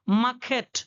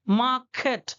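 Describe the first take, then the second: No difference in how they are said.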